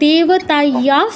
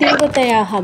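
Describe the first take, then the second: First: The word ends on a plain long vowel. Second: The word ends with an added 'ha' sound. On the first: The line runs on without a pause. "আমি যদি না থেমে মানে পুরোটা একসাথে বলি" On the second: The reciter pauses after this word. "আমার থামতে হচ্ছে বলে আমি দেবতায়াহা বলছি"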